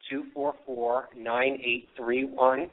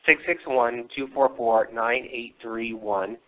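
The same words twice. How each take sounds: First: Hoarse voice cracking on the numbers. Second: Said in the usual way. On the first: Real, not acted. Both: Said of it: "I'm losing my voice".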